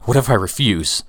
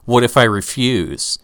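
First: It is said in a panicked, frantic way. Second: It is said in a calm, plain way.

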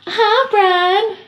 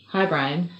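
First: It is said in a creepy put-on voice. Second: It is said in a plain normal voice.

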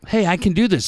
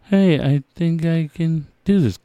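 First: The line is said quickly and casually. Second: The line is said slowly and emotionally.

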